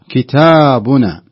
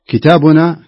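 First: The long vowel is held for two counts. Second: The long vowel is clipped very short. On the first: The speaker calls it right. "هذا الصحيح" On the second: The speaker calls it wrong. "خطأ"

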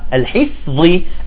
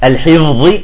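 First: The fa sounds breathy and voiceless, like f. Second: The fa sounds voiced, like an English v. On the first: The speaker calls it right. "لا" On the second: The speaker calls it wrong. "ليست ذي"

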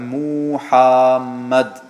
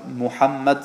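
First: The u and the a are drawn out. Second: The vowels are kept short. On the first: The speaker calls it wrong. "Da hat er ein U zu lang gesprochen und ein A nach dem H ebenfalls zu lang gesprochen" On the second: The speaker calls it right. "statt dass er Muhammad sagt"

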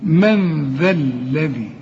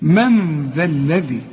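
Both takes have the same delivery.

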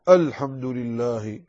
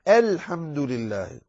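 First: The opening hamza is heavy and thick. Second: The opening hamza is light and thin. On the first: The speaker calls it wrong. "فمن الخطأ ما يفعله بعض الناس" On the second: The speaker calls it right. "لا،"

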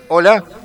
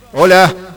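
First: The voice has a sweeping phaser effect. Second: The voice sounds distorted with a slight rasp. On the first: "A ver el phaser" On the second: "Distorsión así, pero no mucho. Medio feo es este. Da una raspadura nomás"

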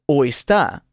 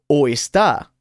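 Both takes have the same delivery.

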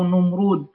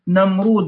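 First: The first vowel is a 'u' sound. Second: The first vowel is an 'a' sound. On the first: "بضمها" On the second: "بفتح النون"

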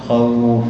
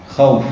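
First: The vowel is lengthened for two counts. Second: The vowel is not lengthened at all. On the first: "تقف إما حركتين" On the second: "الوقف بدون مد مثل الوصل"

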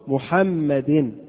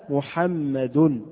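First: The word ends with an i vowel. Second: The word ends with a u vowel. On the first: The word follows a preposition. "جاءت مكسورة محمد" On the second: The word is the subject of the verb. "جاء محمد بالرفع"

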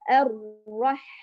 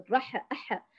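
First: The ḥ ends smoothly with no echoing bounce. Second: The ḥ ends with an added echoing bounce. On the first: The speaker calls it right. "بدون ما يتقلقل" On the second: The speaker calls it wrong. "ولا الرحمن الرح أح، هذا أكثر خطأ شائع"

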